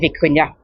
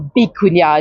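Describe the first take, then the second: First: The word begins with a V sound. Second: The word begins with a B sound.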